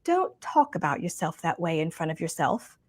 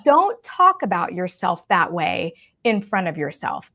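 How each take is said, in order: First: Soft, quiet imitation of a British accent; sweet British accent. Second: Said in the usual way. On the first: Retelling a mentor's advice about ugly self-talk, sweet British accent. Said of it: "in her sweet British accent".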